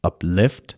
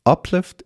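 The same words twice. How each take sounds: First: "uplift" with the weight moved onto LIFT, up-LIFT; verb stress on LIFT. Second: "uplift" with the stress on UP, high and sharp; noun stress on UP. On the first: Teacher showing IELTS students the verb "uplift", stressed up-LIFT. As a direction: lean on the second syllable of "uplift". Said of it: "یعنی استرس رو بذارید روی L". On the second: Teacher showing IELTS students the noun "uplift", stressed UP-lift. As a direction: punch the first syllable of "uplift", UP-lift. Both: Shown as a demonstration.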